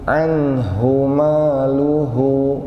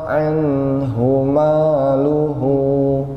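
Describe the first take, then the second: Both takes have the same delivery.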